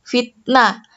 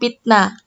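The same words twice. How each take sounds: First: The word begins with an F sound. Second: The word begins with a P sound. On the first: The speaker calls it right. "Huruf F pada awal kata" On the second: The speaker calls it wrong. "tidak boleh diganti dengan huruf P"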